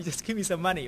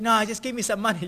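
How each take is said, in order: First: Repeating his demand through a laugh. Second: Imitating a pushy demand, a bit louder; mock demand. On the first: Retold or imitated. Pastor retelling the money demand to church, laughing. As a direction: laugh while quoting him. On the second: Homeless man demanding money instead, mock pushy. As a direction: replay his insistence. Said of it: "he got also upset".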